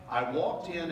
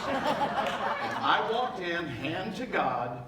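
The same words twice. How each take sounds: First: Said in the usual way. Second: Very slow, laughing I walked in. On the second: Real, not acted. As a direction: drag "I walked in" out while laughing. He restarts the line, laughing the first time.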